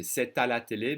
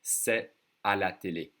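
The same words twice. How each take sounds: First: C'est à la télé with the T linked into the à; careful liaison. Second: C'est à la télé without the T linked; everyday speed, no liaison before à; casual c'est à la télé; liaison skipped. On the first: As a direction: say it slowly, joining the T to the next vowel. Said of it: "If I say it slowly, I should connect the T". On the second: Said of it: "that would be one of them". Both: Shown as a demonstration.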